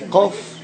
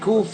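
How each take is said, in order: First: It is said the deeper Yemenite way. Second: It is said the common Israeli way. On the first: "they say kof" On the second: "instead of saying kuf"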